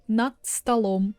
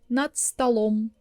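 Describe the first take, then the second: The two takes are said the same way.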